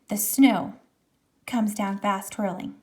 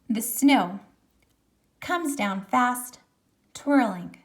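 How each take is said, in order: First: It runs on with no pause after fast. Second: There is a pause after fast.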